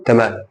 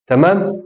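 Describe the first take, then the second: First: تمام low with a falling end; short falling statement on تمام; confirming answer. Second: تمام rising high at the end; high rising question on تمام; checking question. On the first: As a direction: answer تمام, pitch dropping to close it. Answers his own check. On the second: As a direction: ask تمام as a quick check, pitch lifting. Asks, then answers himself. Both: Shown as a demonstration.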